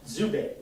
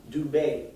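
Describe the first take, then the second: First: Zubé opened with a buzzed "dz" for the D; Canadian French DZ. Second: Dubé with a clean, hard D; French of France D. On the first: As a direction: say Zubé as "dzu-bé", Québécois style. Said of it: "In Canada, it's pronounced". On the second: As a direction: say Dubé with no buzz after the D. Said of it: "In France". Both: Shown as a demonstration.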